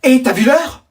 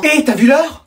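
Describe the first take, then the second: First: Said in the usual way. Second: Scolding call. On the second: Acted. Mom catches kid up late.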